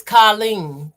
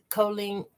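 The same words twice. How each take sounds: First: "Colleen" with an open AH, KAH-leen; trying the pronunciation. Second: "Colleen" with a long OH, KOH-leen, softly; testing the pronunciation. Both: Shown as a demonstration. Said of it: "I think I'm pronouncing it correct".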